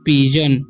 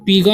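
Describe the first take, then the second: First: The middle consonant is a j sound. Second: The middle consonant is a hard g sound. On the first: The speaker calls it right. "जी का उच्चारण हो जाएगा ज" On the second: The speaker calls it wrong. "इसे पीगन नहीं पढ़ना है"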